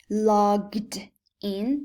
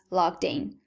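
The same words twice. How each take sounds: First: The words are said separately and carefully. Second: The words are run together into one unit.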